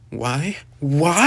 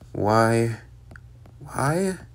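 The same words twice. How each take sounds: First: It is said loudly, with strong force. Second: It is said plainly, without force.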